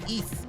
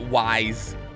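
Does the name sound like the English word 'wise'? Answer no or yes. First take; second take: no; yes. First: The name does not sound like wise. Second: The name sounds like the English word wise. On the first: The speaker calls it right. "it is apparently actually pronounced Ys" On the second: The speaker calls it wrong. "Which is how I see a lot of people pronounce it"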